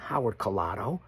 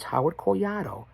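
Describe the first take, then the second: First: The surname is pronounced the plain English way. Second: The surname is pronounced the Spanish way, rolled. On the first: The speaker calls it wrong. "It's not Howard Collado" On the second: The speaker calls it right. "It's Howard Collado. You got to roll the tongue"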